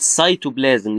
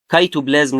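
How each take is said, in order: First: The word begins with an s sound. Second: The word begins with a k sound. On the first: The speaker calls it right. "لا بقول سايتوبلازم" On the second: The speaker calls it wrong. "ما بقولش كايتوبلازم"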